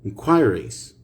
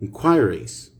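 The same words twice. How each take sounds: First: It is said in a British accent. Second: It is said in a British accent.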